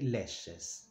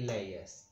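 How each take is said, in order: First: The middle consonant is a 'sh' sound. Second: The middle consonant is a 'y' sound. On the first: "when we do the plural, um, we pronounce it as we do here" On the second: "In Spain and Latin America, they say"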